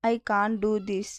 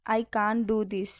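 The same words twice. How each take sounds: First: Said in the usual way. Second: "I can't do this" said slowly, each word clear; slow it down for learners; slow, careful repeat. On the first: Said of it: "teacher repeats the phrase". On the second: Shown as a demonstration. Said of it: "teacher repeats the phrase slower". (నెమ్మదిగా, స్పష్టంగా)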